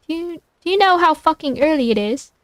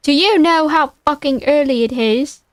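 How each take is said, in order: First: Second try at an irritated British voice, higher; British accent. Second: Irritated British phone answer, slightly overdone; British accent. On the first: Louis woken early by a phone call, higher irritated British accent. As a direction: put on a British accent, raised in pitch. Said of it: "thickly accented and clear and irritated". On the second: Louis answering an early call from Brock, irritated British accent. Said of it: "he has a British accent". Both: Acted.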